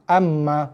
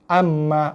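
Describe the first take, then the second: No difference in how they are said.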